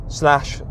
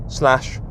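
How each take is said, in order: No difference in how they are said.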